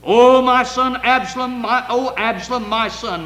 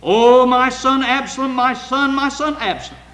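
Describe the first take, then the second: First: High, loud lament that fades; crying with a loud voice. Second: Loud, high grieving cry; anguished cry. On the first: The king weeping over Absalom, a loud lament. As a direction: wail it out over a lost son. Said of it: "the king cried with a loud voice". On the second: David crying out for his dead son, a loud wail. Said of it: "David cried out when his son was dead". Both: Acted.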